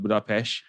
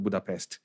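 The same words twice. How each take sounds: First: Budapest with a SH ending; local pronunciation. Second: Budapest with a plain S and T ending; foreigner's pronunciation. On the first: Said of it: "the locals will call it". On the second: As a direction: say Budapest just as spelt, ending "pest". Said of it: "if you're a foreigner, like Englishman". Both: Shown as a demonstration.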